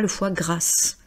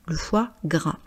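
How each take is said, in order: First: The final S sound of gras is pronounced. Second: The final S sound of gras is silent. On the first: The speaker calls it wrong. "je ne dis pas le foie grasse" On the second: The speaker calls it right. "C'est masculin singulier"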